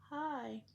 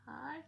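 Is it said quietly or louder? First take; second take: louder; quietly. First: It is said a little louder. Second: It is said very quietly.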